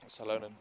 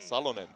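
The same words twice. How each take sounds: First: The name is said in an English-style way. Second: The name is said in a Finnish way. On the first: It suits listeners from many countries. "I'm pronouncing the name for our international audience" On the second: It is how people in Finland say it. "in Finland you'd pronounce it Salonen"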